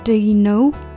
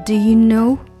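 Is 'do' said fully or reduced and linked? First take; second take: reduced; reduced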